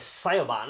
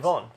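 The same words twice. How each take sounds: First: The name is read out letter by letter. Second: The name is said the Irish way. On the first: The speaker calls it wrong. "What do you think I was going to say?" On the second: The speaker calls it right. "Oh, well done"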